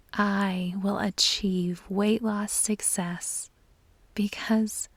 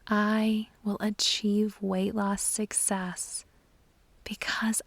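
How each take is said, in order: Both takes have the same delivery.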